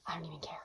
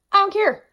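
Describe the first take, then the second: First: Breathy whispered aside. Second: High, loud exclamation; emphatic. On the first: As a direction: drop to a whisper, conspiratorial. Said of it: "Give me all the highlighters". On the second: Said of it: "I don't even care that". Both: Real, not acted.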